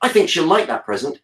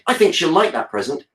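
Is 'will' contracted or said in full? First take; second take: contracted; contracted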